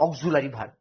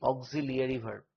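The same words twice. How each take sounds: First: "অক্সিলারি" said as "og-zu-la-ri", with a u and no glide; childhood pronunciation. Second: "অক্সিলিয়ারি" said as "og-zi-li-a-ri", with the i glide; original pronunciation. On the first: Teacher showing how we said it since childhood, "অক্সিলারি" as og-zu-la-ri. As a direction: say "অক্সিলারি" the common way, "og-ZU-la-ri". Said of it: "আমরা ছোটবেলা থেকে কি বলি?". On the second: Teacher giving students the original pronunciation, "অক্সিলিয়ারি" as og-zi-li-a-ri. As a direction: say "অক্সিলিয়ারি" with zi-li-a, not zu-la. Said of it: "উচ্চারণটা original কি?".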